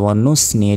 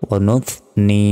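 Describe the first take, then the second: First: The middle consonant is a hissing s sound. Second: The middle consonant is made with tongue between teeth. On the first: The speaker calls it wrong. "আমরা অনেকে বলি যে ওয়ানুস নি এটা কিন্তু ভুল" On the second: The speaker calls it right. "অবশ্যই জিহ্বা বের করে উচ্চারণটা করতে হবে"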